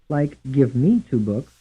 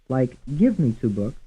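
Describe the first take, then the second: First: The stress falls on the word me. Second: The stress falls on the word give. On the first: "Some stressed on the second syllable" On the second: "Some will be stressed on the first syllable"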